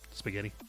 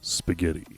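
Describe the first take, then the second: First: It is said in his normal voice. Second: It is said in a put-on daddy voice.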